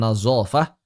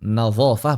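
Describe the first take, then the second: First: The middle consonant is a plain z sound. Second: The middle consonant is an emphatic dh sound. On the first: The speaker calls it wrong. "Dho ini dibaca zai terus" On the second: The speaker calls it right. "Nazafah bukan nazafah"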